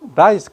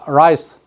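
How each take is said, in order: First: The word begins with an L sound. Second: The word begins with a curled R sound. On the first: The word means head lice. The speaker calls it wrong. "이거 L로" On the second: The word means rice. The speaker calls it right. "이 rice 발음 잘해야 됩니다"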